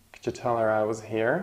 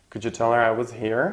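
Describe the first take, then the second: First: Said in the usual way. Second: Fast full sentence. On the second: Shown as a demonstration. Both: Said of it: "the last word is prominent".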